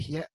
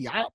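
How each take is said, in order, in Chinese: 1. 这个字读 xie。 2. 这个字读 ya。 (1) "不是读邪" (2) "在古代是读牙"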